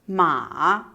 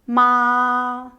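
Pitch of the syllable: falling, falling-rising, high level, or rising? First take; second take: falling-rising; high level. First: The pitch dips low and then rises. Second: The pitch stays high and level. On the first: "Tone three, / It's a falling, raising tone" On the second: "Tone one, / It's a high level tone"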